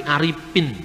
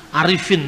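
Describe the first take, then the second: First: Aripin with a clear p where f belongs; Sundanese p for f. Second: Said in the usual way. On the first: Shown as a demonstration. Preacher teaching a class how Sundanese speakers say Arifin. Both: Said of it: "Orang Sunda sulit untuk mengucapkan huruf F".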